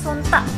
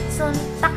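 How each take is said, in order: First: The final k is cut off, not released. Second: The final k is clearly and fully released. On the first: This is how other Javanese dialects say it. "Kalau bahasa Jawa yang lain kan suntek, t-nya itu berhenti" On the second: This is how the Ngapak dialect says it. "Tapi kalau bahasa ngapak itu enggak, kaknya dibaca"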